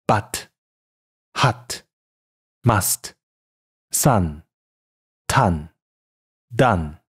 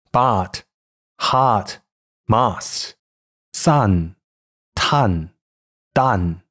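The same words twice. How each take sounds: First: Short, clear model vowel in but, hut, must, sun, ton, done; 示范标准读音. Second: But, hut, must, sun, ton, done with an over-long, open Mandarin "ah"; 错误读音示范. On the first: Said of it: "再来一遍". (示范短元音的标准读音) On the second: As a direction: mispronounce But, hut, must, sun, ton, done with the mouth too wide, vowel drawn out as 啊. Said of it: "以下是错误读音". (把元音错读成又长又开的汉语“啊”) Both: Shown as a demonstration.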